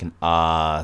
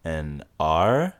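First: R as an open "ah", no R sound; Australian R. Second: R fully sounded, "arr"; American R. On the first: Explaining the Australian sound, R said as open "ah". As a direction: open the mouth wide on R, saying "ah". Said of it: "just opening your mouth". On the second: Contrasting with the Australian sound, R fully pronounced. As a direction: curl the tongue into a hard R. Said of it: "not say the R at all". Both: Shown as a demonstration.

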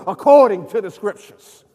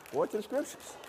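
First: Loud, emphatic preacher's refrain; loud proclamation. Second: Very soft echo; very quiet refrain. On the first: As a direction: proclaim it forcefully to the whole congregation. Refrain shouted, then repeated softly. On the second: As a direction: let the refrain sink almost to nothing. Refrain repeated very softly. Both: Real, not acted.

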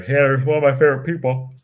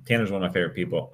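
First: Talking through a yawn; stretched yawn. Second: Said in the usual way. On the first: Real, not acted. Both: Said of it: "Sorry for the yawn".

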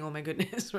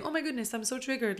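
First: Said in the usual way. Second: Much higher, hammed-up theatrical fuss; mock dramatic. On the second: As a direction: overplay it like a soap-opera gasp. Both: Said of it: "no one's triggered and then saying".

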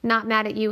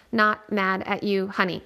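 First: Said in the usual way. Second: "Not mad at you, honey" slow, each word set apart by a pause; extra pauses between words. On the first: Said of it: "Natalie says". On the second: A narrator's reading. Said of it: "adding extra pauses between the words".

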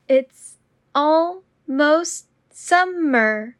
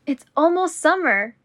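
First: Slow and deliberate. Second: Said in the usual way. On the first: Shown as a demonstration. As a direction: draw out every word. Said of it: "repetition drill, slowed take". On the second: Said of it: "repetition drill, normal take".

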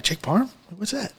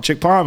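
First: Softer echo with parm rising in question; hushed bafflement, rising on parm; puzzled question. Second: Lightly imitated Aussie local, stating PARM; retold Aussie accent on parm; Australian accent. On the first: Retold or imitated. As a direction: repeat parm as a confused, quiet query. Retold puzzled question echoing the local. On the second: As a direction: say parm as a falling statement, Australian style. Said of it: "like, in Australia".

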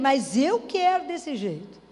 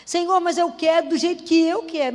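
First: Slow, word-by-word stubborn plea; slow insistence. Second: Louder, insistent plea to God; demanding prayer. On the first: Believer repeating her wish to God, slow and stubborn. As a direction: drag it out, stubborn. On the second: Believer insisting to God on her own way, loud and demanding. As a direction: push your own will at God, loud. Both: Retold or imitated. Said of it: "A gente até dá sugestão pra Deus".

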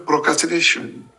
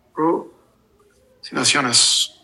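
First: "procrastination" in English pronunciation; English word. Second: "Procrastinaciones" slowly, syllable by syllable, in Spanish sounds; Spanish word. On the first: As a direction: say "procrastination" as an English speaker would. ("procrastination" pronunciado en inglés) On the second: ("Procrastinaciones" despacio, con pronunciación española) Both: Shown as a demonstration. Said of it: "cómo se dice en español la palabra".

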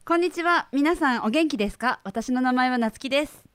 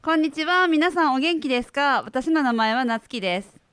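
First: Neat standard Tokyo Japanese self-introduction. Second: The same lines with Kagoshima dialect intonation. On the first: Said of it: "I'll try standard Japanese". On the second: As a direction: give it the Kagoshima lilt. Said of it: "if you did that in Kagoshima dialect". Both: Shown as a demonstration.

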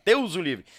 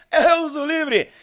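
First: Said in the usual way. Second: High, loud cry of disbelief; loud exclamation. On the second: Real, not acted. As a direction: blurt it out in shock. Exclaiming in shock.

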